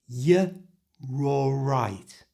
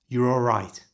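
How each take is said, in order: First: The phrase is said slowly. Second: The phrase is said fast. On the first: "So slowly it sounds like this" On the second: "And at normal speed, which is fast, like this"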